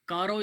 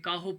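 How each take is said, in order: First: The middle consonant is a tapped r sound. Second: The middle consonant is a breathy h sound. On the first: The speaker calls it wrong. "इसको मैंने नहीं पढ़ा" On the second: The speaker calls it right. "मैंने काहो पढ़ा है"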